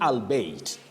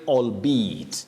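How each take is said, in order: First: The word is pronounced just as it is spelled. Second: The word is pronounced differently from its spelling. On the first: The speaker calls it wrong. "many people would pronounce it the way it is spelled ... So don't say albeit" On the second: The speaker calls it right. "We say albeit ... don't pronounce this word the way it is spelled"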